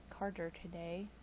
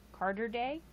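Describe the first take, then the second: First: Said in the usual way. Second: Rising on "Carter day?"; puzzled question. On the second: Shown as a demonstration. Misreading a chat name, asking "Carter day?" with a rising end. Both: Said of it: "Okay, dyslexic".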